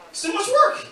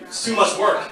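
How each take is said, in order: First: Mock high whine. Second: Said in the usual way. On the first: Repeating the punchline higher.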